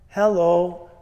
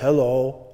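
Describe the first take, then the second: First: It is said in a higher voice. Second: It is said in a lower voice.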